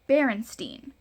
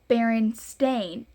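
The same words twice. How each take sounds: First: The last syllable does not sound like 'stain'. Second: The last syllable sounds like 'stain'. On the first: "spelled E I N at the end, like Berenstain" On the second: "it says Berenstain, A I N"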